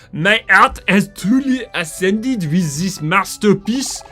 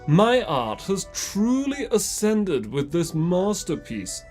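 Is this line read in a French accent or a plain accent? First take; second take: French; plain. First: It is read in a put-on French accent. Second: It is read without a French accent. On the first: The speaker calls it right. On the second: The speaker calls it wrong.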